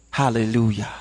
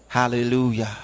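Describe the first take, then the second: No difference in how they are said.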